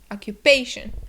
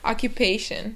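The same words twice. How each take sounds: First: The word is said very loudly, almost shouted. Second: The word is said at a normal, calm volume. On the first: The speaker calls it wrong. "I'm like screaming it" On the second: The speaker calls it right. "would be the correct way to say it"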